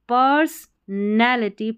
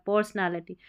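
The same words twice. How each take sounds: First: पर्सनैलिटी split as per-son-ality with a full o; wrong pronunciation. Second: पर्सनैलिटी blended as pers-nality with a light a sound; correct pronunciation. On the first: Teacher shows students the wrong way, per-son-ality. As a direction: spell out पर्सनैलिटी as पर्सन plus एलिटी, the wrong way. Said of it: "ऐसे पढ़ेंगे तो सही उच्चारण नहीं". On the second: Teacher gives students the right blended reading, pers-nality. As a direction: run पर्सनैलिटी together, no full o. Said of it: "pronounce mix करके सही करना है". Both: Shown as a demonstration.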